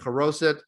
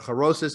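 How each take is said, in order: First: The word uses a non-Yiddish pronunciation. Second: The word uses a Yiddish pronunciation.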